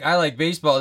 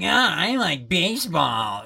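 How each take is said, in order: First: It is said in a plain, normal voice. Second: It is said in a mocking put-on voice. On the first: The speaker says it as themselves. "if I was like" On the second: Someone else mocks the speaker's words. "his voice is like, ... mocking my own voice, but poorly"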